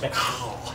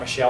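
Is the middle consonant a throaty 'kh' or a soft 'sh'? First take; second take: throaty kh; soft sh. First: The middle consonant is a throaty 'kh' sound. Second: The middle consonant is a soft 'sh' sound. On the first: The speaker calls it right. "You got to kind of haka. If you're going to do it like it's actually pronounced" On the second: The speaker calls it wrong. "That's just a nice sounding English name or French name"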